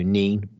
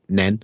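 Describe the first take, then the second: First: The vowel is a long 'ee' sound. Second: The vowel is a short 'e' sound. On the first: This is how people from Peterborough say it. "You might pronounce it if you're from Peterborough" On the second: This is how people in Northamptonshire say it. "if you're in Northamptonshire, it's"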